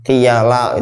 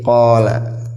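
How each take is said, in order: First: The word is read with vowels i, a, a. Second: The word is read with vowels a, a. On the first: The speaker calls it wrong. "kalau asal baca mungkin bisa dibaca macam-macam" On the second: The speaker calls it right. "Makanya kalau seperti ini jadi qala"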